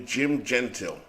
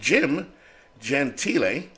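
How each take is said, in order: First: The surname is pronounced a non-Italian, English way. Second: The surname is pronounced the Italian way. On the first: "It could be Jim Gentile" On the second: "which I believe is the Italian way of saying it"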